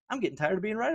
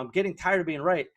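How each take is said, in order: First: It is said in a boastful, triumphant tone. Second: It is said in a rueful, regretful tone. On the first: The speaker is bragging about being proven right. "you can take a little victory lap and then you can trot around and you say it differently" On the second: The speaker ignored their instinct and regrets it. "you knew what the right thing would, was to do and you didn't do it"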